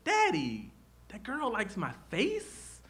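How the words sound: The voice rises at the end, like a question.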